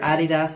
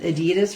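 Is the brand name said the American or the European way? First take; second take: European; American. First: The name is pronounced the European way. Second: The name is pronounced the American way.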